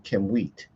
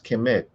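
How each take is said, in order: First: The second syllable sounds like 'wheat', with a w. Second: The second syllable sounds like 'met', without a w. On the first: The speaker calls it right. "It would be Kim wheat" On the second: The speaker calls it wrong. "some people would just pronounce this Kemet, but it's not Kemet"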